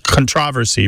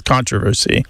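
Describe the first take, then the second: First: "controversy" stressed on TROV; second-syllable stress. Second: "controversy" stressed on CON; first-syllable stress. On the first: Host contrasting two current forms, "controversy" stressed on TROV. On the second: Host contrasting two current forms, "controversy" stressed on CON. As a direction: hit CON at the start of "controversy". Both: Shown as a demonstration. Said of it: "it's just a change thing".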